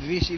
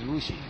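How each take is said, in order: First: The first vowel sounds like 'i'. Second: The first vowel sounds like 'u'. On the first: This is the other speaker's regional way of saying it. "You call it Rishi" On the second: This is the speaker's own regional way of saying it. "we call it Rushi"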